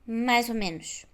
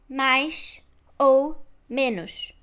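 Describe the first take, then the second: First: 'Mais' ends in a z sound. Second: 'Mais' ends in a sh sound. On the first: The speaker calls it right. "o som sh muda para z" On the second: The speaker calls it wrong. "não é"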